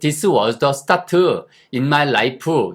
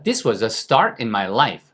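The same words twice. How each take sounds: First: The t in start is clearly pronounced. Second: The t in start is dropped, said fast. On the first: "이렇게 발음하지 않습니다" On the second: "빨리 지나가면 T가 없는 것처럼 들려요"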